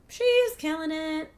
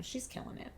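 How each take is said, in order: First: She's killing it said much higher and slower; high, slow, proud She's killing it; proud exclaim. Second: She's killing it breathed out in a whisper; hushed, admiring She's killing it. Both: Real, not acted.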